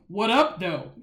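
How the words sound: Said in a stiff, awkward, non-native-sounding tone. The speaker calls it wrong. "they did not sound native when they were saying it"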